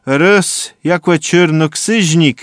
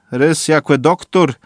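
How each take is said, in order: First: Slow, higher and louder, punch rys; stress on rys. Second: Slow, falling weight on doktor; stress on doktor. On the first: Derda building to the sorcerer, slow stress on rys. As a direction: hit rys hard, then draw out czyrnoksyźnik. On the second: Derda listing who comes, slow stress on doktor. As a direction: lean on the word doktor. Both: A narrator's reading.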